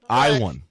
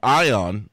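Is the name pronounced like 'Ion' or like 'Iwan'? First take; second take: Iwan; Ion. First: The name is pronounced like 'Iwan'. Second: The name is pronounced like 'Ion'. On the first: The speaker calls it right. "the correct pronunciation of his name is Iwan" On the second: The speaker calls it wrong. "we called him Eon or Ion last week"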